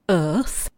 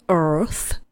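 First: It is said in a non-American accent. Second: It is said in an American accent.

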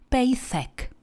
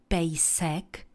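First: The s is lisped with the tongue between teeth. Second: The s is a normal hissing s sound. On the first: "které si šlape na jazyk" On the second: "místo slova pejsek"

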